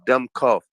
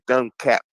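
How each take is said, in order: First: The second part sounds like 'cough'. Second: The second part sounds like 'cap'. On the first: The speaker calls it right. "but it's dumb cough" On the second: The speaker calls it wrong. "He said dumb cap"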